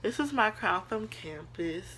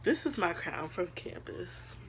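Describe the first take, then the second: First: Said in the usual way. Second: Hushed, slow, voice catching; unvoiced awe over her crown; emotional whisper. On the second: Real, not acted. Showing her campus crown to viewers, a hushed emotional whisper. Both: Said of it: "I don't know why I'm getting emotional".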